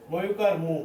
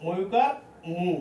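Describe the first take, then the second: First: Said in the usual way. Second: ময়ুকার মু drawn out slowly, syllable by syllable; ধীরে ধীরে ভেঙে ভেঙে ময়ুকার মু বলুন; slow spelled-out demo. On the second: Shown as a demonstration. (শিক্ষক ছাত্রদের জন্য ধীরে উচ্চারণ দেখাচ্ছেন, ধীর স্পষ্ট স্বরে) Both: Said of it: "এটা কি হবে মু".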